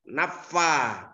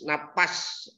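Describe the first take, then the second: First: The vowel after the f is held long. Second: The vowel after the f is short. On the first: The speaker calls it right. "Jadi bukan napas, naffa, panjangin tuh" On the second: The speaker calls it wrong. "kadangkala ada orang baca wa min syarrin napas... Itu salah"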